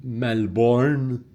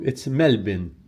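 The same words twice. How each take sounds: First: Melbourne said as "mel-born"; mispronunciation demo. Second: Melbourne said as "MEL-bin"; correct local pronunciation. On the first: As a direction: sound out a full "born" in Melbourne. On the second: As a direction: reduce the end of Melbourne to "bin". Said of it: "that's wrong". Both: Shown as a demonstration.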